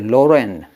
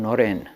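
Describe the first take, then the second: First: The name begins with an L sound. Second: The name begins with an N sound. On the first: The speaker could not pronounce the N sound. "So you say Loren. You couldn't do Noren" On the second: This is the usual form of the name. "Narendra was called Noren in Bengal"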